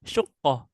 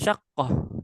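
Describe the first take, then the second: First: The first vowel is a u sound. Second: The first vowel is an a sound. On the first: "mendomahkan shinnya" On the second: "dibacanya dengan fathah shin"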